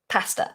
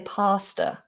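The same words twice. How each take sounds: First: The first vowel is short. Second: The first vowel is lengthened. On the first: "Like I say pasta" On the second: "some people say pasta if they're very posh"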